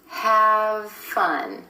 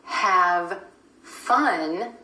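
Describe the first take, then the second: First: The v and f sounds blend together. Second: The two words are said separately.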